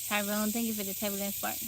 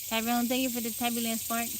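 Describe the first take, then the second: The two takes are said the same way.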